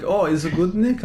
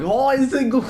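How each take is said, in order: First: Coworker's question, rising, lightly imitated; lightly imitated Chinese accent. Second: High, loud mock Chinese accent; mimicked Chinese accent. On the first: Retelling a coworker's question to a friend, lightly imitated accent. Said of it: "she's like". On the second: Blurting it back to the coworker, mimicked Chinese accent. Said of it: "in a Chinese".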